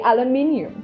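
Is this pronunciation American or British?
British. It is said with five syllables, British style. "in Britain, we say aluminium"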